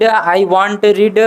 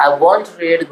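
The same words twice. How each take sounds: First: "want" said for won't, as a plain want with a t; student's slip, "want" instead of won't; "want" sounds like the word want; mispronounced won't. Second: "won't" said clearly as won't with a long o; teacher models "won't", not want; corrected won't. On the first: Real, not acted. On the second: Shown as a demonstration. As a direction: model the right "won't", rounded o. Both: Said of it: "pronunciation अभी थोड़ा mistake".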